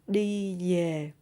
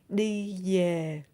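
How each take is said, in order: First: Southern accent, the v sounds like y. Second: Southern accent, the v sounds like y.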